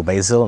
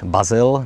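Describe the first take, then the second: First: Basil said English-style, "BAY-zil"; English-style pronunciation. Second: Basil read as spelt, "BA-zil"; Czech-style pronunciation. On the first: Lecturer unsure how the name is read, English-style pronunciation. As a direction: say Basil with an "ay" in the first syllable. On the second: Lecturer introducing the painter to viewers, Czech-style pronunciation. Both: Shown as a demonstration. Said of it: "nevím, jak se to čte".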